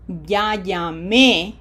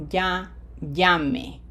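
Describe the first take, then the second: First: Slow "ya llamé", loud on the final é; stress on final É. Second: Slow "ya llame", stressed "lla", falling final e; emphasize the first syllable of "llame" and let the end fall. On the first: Teacher contrasting two verbs for pupils, final-syllable stress on "llamé". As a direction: hit the last syllable of "llamé". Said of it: "Notice that the emphasis". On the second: Teacher contrasting two verbs for pupils, first-syllable stress on "llame". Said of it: "emphasis is not on the E". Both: Shown as a demonstration.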